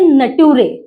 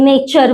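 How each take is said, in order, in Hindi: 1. बीच का व्यंजन t जैसा बोला जाता है। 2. बीच का व्यंजन ch जैसा बोला जाता है। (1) "उसको करते हैं नटूरे" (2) "नेचर वर्ड है"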